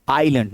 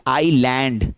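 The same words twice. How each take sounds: First: आइलैंड said "eye-lund", weak second vowel; correct pronunciation. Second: आइलैंड with a full "land", "eye-land"; wrong pronunciation. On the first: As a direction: reduce the end of आइलैंड to "lund". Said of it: "सही pronunciation क्या है". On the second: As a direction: open up the vowel in the end of आइलैंड, eye-land. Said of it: "ना कि". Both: Shown as a demonstration.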